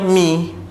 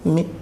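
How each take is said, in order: First: The vowel is sounded fully and clearly. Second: Only a faint third of the vowel is sounded. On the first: "itu bunyi penuh" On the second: "hanya satu per tiga daripada bunyi sempurna"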